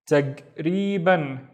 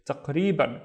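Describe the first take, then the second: First: "Tagriban" drawn out very slowly, syllable by syllable; slow, spelled-out "Tagriban"; slow syllable blend. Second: Said in the usual way. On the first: Shown as a demonstration. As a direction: stretch "Tagriban" out slowly for learners. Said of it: "slowed demo of word". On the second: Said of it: "normal-speed repeat".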